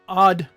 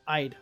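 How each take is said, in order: First: The vowel sounds like the vowel in 'odd'. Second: The vowel sounds like the word 'eye'. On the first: The speaker calls it wrong. "No one says odd" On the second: The speaker calls it right. "I say I'd. Like the I is very pronounced"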